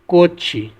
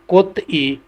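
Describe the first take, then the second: First: The final consonant is linked onto the vowel. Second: The final consonant is kept separate from the vowel. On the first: "pronounce होगा" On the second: "अगला है"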